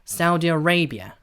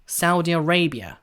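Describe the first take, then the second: The two takes are said the same way.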